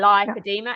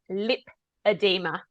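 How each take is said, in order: First: The first syllable does not sound like lip. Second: The first syllable sounds like the word lip. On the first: The speaker calls it wrong. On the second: The speaker calls it right. "it's lip edema"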